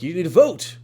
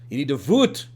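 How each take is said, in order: First: The last word has an 'oh' vowel. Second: The last word has an 'oo' vowel. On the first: "I was saying vote, like you need to vote, but I was saying it with emphasis" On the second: "it just kind of devolved over time ... into voot"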